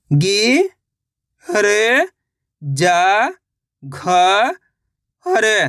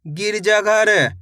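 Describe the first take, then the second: First: गिरजाघर drawn out part by part; syllable by syllable. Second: Said in the usual way. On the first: Shown as a demonstration. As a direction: stretch गिरजाघर slowly. (अक्षर-अक्षर खींचकर) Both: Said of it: "तो मिलके बन जाएगा".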